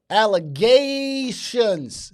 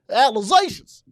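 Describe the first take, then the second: First: The word is fully enunciated, every syllable clear. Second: The word is clipped, with the middle sounds blurred. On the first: The speaker calls it right. "You gotta enunciate" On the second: The speaker calls it wrong. "They they they talk they they talking off alizations"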